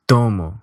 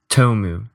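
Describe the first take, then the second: First: The o vowel stays steady without gliding. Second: The o vowel glides toward an u sound. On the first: The speaker calls it right. "Portuguese has tomo" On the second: The speaker calls it wrong. "English, tomu"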